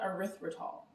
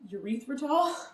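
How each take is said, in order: First: The word begins with an 'eh-ri' sound. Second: The word begins with a 'yoo-ree' sound. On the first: "So I'm going to call it erythritol" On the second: "that sounds like urethra"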